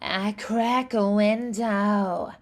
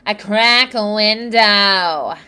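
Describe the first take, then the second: First: The voice is lightly nasal with a breathy, airy quality. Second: The voice is strongly nasal, whiny and twangy. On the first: "a little nasality with a little bit of that airy quality" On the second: "whiny twangy"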